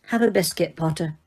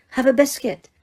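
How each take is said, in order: First: Said in the usual way. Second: Higher, brisk repeated offer; impatient. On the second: A narrator's reading. Teacher repeating her offer to a confused student, impatient. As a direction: repeat it, losing patience. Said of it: "she repeated impatiently".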